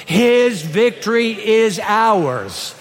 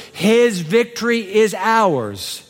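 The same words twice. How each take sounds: First: HIS stressed, slow and firm; slow, firm words for the church to repeat; stronger recitation. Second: HIS stressed, slow and deliberate; slow, weighty declaration, each word placed; slow emphatic. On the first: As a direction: say it like you mean it. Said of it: "you can do that stronger". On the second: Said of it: "What are those last four words?". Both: Shown as a demonstration.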